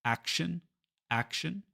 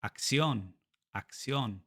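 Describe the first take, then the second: First: Action stressed on the first syllable; English first-syllable stress. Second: Acción stressed on the final O; Spanish final-syllable stress. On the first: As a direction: hit the start of action, let the ending reduce. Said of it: "we stress the first syllable". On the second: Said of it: "the stress syllable is the one with the O". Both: Shown as a demonstration.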